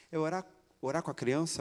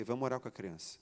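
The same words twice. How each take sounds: First: Doubtful question, rising at the end; incredulous question. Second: Said in the usual way. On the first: Retold or imitated. Wife questioning praying with a small child, incredulous. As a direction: query it in mild disbelief.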